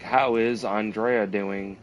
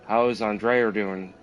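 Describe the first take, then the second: First: No R sound is heard after Andrea. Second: An R sound is added after Andrea. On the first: "instead of saying like" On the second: "he'd be like ... they do this like linking R thing"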